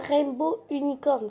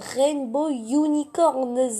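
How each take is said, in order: First: The name ends without a final S sound. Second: The name ends with a clear final S sound. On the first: The speaker calls it wrong. "c'est pas Rainbow Unicorn" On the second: The speaker calls it right. "Tu prononces le S"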